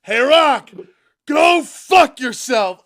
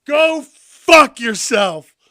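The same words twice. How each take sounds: First: Loud, higher yell, slow on go fuck yourself; mock angry shout. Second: Slow, loud, high yell; loud mock yell. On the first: Cody yelling at the Rock, loud and defiant. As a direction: bellow it at him, defiant. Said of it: "he li". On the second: Replaying Cody's uncensored line, loud and slow. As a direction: drag it out, relishing every word. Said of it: "We heard it in all its four-letter glory".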